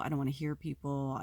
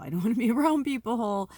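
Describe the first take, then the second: First: Said in the usual way. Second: Breaks into a real laugh mid-line, higher and louder; exasperated laugh. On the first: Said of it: "I don't wanna see people". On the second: Real, not acted.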